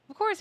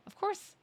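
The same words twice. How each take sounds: First: Loud sarcastic squeal. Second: Sarcastic squeak. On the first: Louder sarcastic retort. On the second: Sarcastic high retort. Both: Real, not acted.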